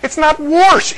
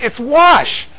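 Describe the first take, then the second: First: Wash said "warsh" with an R, voice up high; mock the wrong "warsh". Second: Wash said "wahsh", no R, kept high; proper wash. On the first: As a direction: wash with an added R, pitched high. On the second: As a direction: say the right wash, no R at all. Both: Shown as a demonstration. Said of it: "There's no R in wash".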